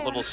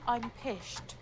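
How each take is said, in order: First: The word is said clearly, with an s sound. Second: The word is slurred, with an sh sound.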